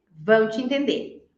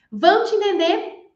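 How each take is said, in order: First: Said in the usual way. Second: High-pitched rhetorical "Vão te entender?"; lifted, questioning "Vão te entender?"; question tune. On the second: Shown as a demonstration. Doubting question, then answered.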